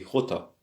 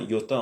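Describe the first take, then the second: First: It begins with a throaty, rasping sound. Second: It begins without a throaty, rasping sound. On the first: The speaker calls it right. "on dit Jota" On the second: The speaker calls it wrong. "on dit pas iota"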